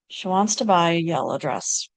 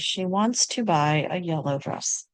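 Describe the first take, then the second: First: Unstressed vowels are reduced and the words run together. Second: Unstressed vowels are said fully and the words are separate. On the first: "an American might sound like" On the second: "it's completely fine to say"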